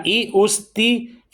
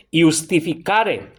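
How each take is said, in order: First: "iustificare" slowly split into syllables, i-us-ti-fi-ca-re. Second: "iustificare" with an initial Latin i sound, not a j. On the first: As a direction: separate the Latin i at the start of "iustificare". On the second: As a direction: say "iustificare" slowly as one Latin word. («iustificare» en latín, con i inicial, de corrido) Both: Shown as a demonstration.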